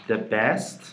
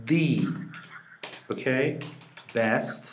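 First: Said in the usual way. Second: THE as a long "thee", set apart by pauses; "thee" for THE, marking the one and only; emphatic THE. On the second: Shown as a demonstration. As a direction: hold THE alone before "best".

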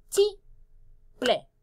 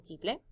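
First: "Tiple" as ti, pause, ple, starting high; split into syllables. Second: Said in the usual way. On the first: Shown as a demonstration. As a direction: break "Tiple" into two separate beats. ("Tiple" separando ti y ple) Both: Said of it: "¿Qué son las sílabas en tiple?".

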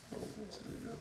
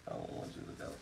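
First: High, hammed-up whimpering plea; fake-sob it much higher, like a dramatic goodbye; mock crying wail. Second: Hushed, pretend-tearful whisper; mock sad whisper. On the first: Owner hamming up sorrow at selling his dog, high mock wail. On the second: Owner pretending to plead with the dog he is selling, whispered. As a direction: whisper it like a half-joking goodbye. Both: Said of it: "I'm gonna cry".

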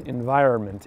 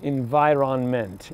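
First: Said in the usual way. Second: "Environment" slowly, with a clear "ron-ment"; N pronounced. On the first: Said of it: "How do you say it?". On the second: Shown as a demonstration. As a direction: spell out every syllable of "Environment", N fully sounded. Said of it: "Do you say the N in environment?".

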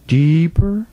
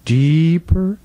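Both takes have the same delivery.

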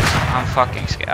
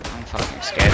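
First: Slow, whispered fear; scared whisper. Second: Said in the usual way. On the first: Real, not acted. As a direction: breathe it out scared and hushed.

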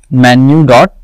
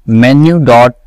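No difference in how they are said.

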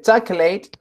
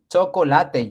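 First: Chocolate said the English way as CHOK-let, two syllables. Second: Chocolate said the Spanish way as cho-co-LA-te, four syllables; chocolate in Spanish, all four syllables. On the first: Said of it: "es chocolate". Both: Shown as a demonstration.

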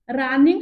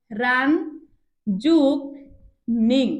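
First: Said in the usual way. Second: "রান যোগ নিং" with long pauses between parts; word broken in two. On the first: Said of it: "শব্দটিকে উচ্চারণ করো". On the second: Shown as a demonstration. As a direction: set out "রান" and "নিং" as separate beats. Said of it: "দুইবার উচ্চারণ করছি". ("রান যোগ নিং" থেমে থেমে, ভেঙে)

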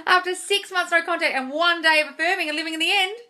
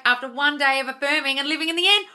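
First: Higher, louder repeat, full of wonder; amazed repeat. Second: Said in the usual way. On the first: Real, not acted. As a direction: say it again in disbelief.

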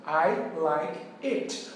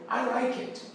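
First: "like" said very slowly, each word separated; teacher slowly spelling out the correct "like" for learners; slow clear demo. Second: Said in the usual way. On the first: Shown as a demonstration. Very slow model phrase. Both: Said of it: "você vai dizer".

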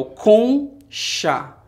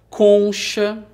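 First: "conchá" very slowly, split into con and chá; syllable by syllable. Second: Said in the usual way. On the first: Shown as a demonstration. Teacher isolating the second syllable for pupils, "conchá" in two slow beats. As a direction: break "conchá" in two, a long gap before chá. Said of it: "Esse chá começa com". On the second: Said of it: "Por exemplo".

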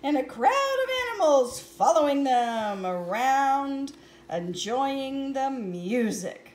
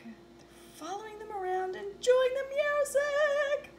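First: Said in the usual way. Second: Sung, sing-song repeat. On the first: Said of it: "repeats line differently". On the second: Shown as a demonstration. Sung, reader repeats the line as a lilting sing-song. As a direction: croon it the second time. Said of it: "repeated in sing-song".

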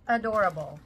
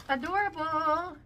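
First: Said in the usual way. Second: Sing-song. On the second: Real, not acted.

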